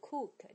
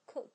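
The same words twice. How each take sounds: First: The vowel in cook is long. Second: The vowel in cook is short. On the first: The speaker calls it wrong. "不是cook" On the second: The speaker calls it right. "叫cook"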